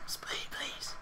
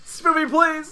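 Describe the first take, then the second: First: Breathy whisper, almost silent; mock hushed begging; whispered echo. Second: High pleading call, stretched out; mock heroic begging; hammed-up plea. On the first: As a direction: murmur the plea back in a whisper. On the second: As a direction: beg the audience like an anime hero. Echoed plea to viewers.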